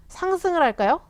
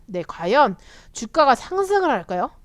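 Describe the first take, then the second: First: 상승을 lifted high with a rising end; 상승을 할까요 asked high and rising; high rising question. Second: Said in the usual way. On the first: Shown as a demonstration. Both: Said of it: "아무도 모르죠".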